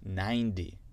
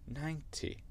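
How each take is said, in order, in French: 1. Le t ressemble à un d doux. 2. Le t est un t net et clair. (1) "je vais le dire avec mon accent américain" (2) "et après l'accent britannique"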